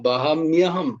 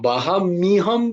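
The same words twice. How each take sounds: First: The middle syllable has a y glide. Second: The middle syllable is a plain mi. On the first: The speaker calls it right. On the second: The speaker calls it wrong.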